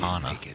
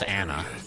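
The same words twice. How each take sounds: First: The name is said the British way. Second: The name is said the American way. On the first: The speaker calls it wrong. "It's not Ana. That's more British" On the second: The speaker calls it right. "the American way is Ana"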